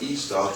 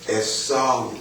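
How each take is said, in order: First: It uses the familiar everyday pronunciation of the name. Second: It uses the less familiar, more original pronunciation. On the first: This is how people usually refer to him. The speaker calls it wrong. "We refer to that as Esau" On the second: This is the more correct form of the name. The speaker calls it right. "but more correctly pronounced Esau"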